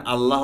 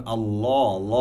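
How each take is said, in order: First: আল্লাহ with a thin open "Allah"; wrong light "laa". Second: আল্লাহ said "Allaw", rounded and long; heavy "law". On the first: Teacher showing what is never right, light "laa" in আল্লাহ. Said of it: "এখানে কখনো আল্লাহ হবে না". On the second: Teacher applying the rule, heavy "law" in আল্লাহ. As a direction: make the l of আল্লাহ heavy, vowel "aw". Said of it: "এখানে হবে". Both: Shown as a demonstration.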